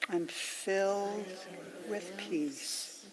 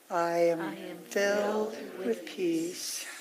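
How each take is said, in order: First: It is said more quietly again, fairly soft. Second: It is said a little more quietly than before. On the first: "let it get softer and softer" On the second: "let it get softer and softer"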